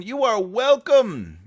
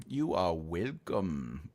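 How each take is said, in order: First: Sung-out thanks. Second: Low mock voice. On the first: Acted. Sing-song reply. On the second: Low put-on reply.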